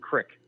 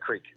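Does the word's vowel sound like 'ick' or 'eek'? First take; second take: ick; eek. First: The vowel is short, like 'ick'. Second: The vowel is long, like 'eek'. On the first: This is the local regional way of saying it. "where I'm from, it's called ... crick" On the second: This is the standard way of saying it. "Instead of creek"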